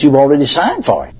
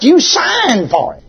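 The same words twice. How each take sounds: First: Said in the usual way. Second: "You" hit high and drawn out, slow; stress on you. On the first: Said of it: "You better not sign". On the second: Acted. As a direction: lean slowly on "You" in "You signed for it". Preacher hammers home the point.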